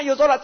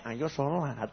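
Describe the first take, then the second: First: Urging aloud. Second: Inner thought. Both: Retold or imitated. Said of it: "Di hatinya".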